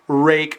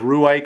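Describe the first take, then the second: First: The name ends with a breathy final sound. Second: The name ends without a breathy final sound. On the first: The speaker calls it right. "with a bit of an H sound at the at, at the end" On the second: The speaker calls it wrong. "I can't remember how I pronounced it, sort of Ruike or something"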